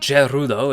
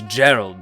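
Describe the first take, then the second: First: The name is said with Japanese-style syllables. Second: The name is said with English-style syllables. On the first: The speaker calls it wrong. "Gerudo is simply the pr Japanese pronunciation of Gerald" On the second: The speaker calls it right. "his name is Gerald"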